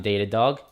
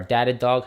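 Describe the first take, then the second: First: Datadog said as DAY-tuh-dog; first syllable of Datadog rhymes with "day"; Datadog with long A. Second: Datadog said as DAT-uh-dog; first syllable of Datadog rhymes with "that"; Datadog with short A. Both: Shown as a demonstration. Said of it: "however you guys say it".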